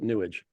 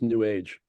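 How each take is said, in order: First: It is said as one word rhyming with 'sewage'. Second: It is said as two words, 'new age'.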